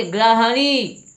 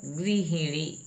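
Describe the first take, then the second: First: गृहिणी as "gra-ha-nee", high and loud; "a" vowels in गृहिणी, loud; mispronounced गृहिणी. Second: गृहिणी as "gri-hi-nee"; "i" vowels all through गृहिणी; corrected pronunciation. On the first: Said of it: "गा में रा नहीं होना चाहिए". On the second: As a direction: say गृहिणी with "ri" and "hi", both short. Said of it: "इसका शुद्ध होगा". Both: Shown as a demonstration.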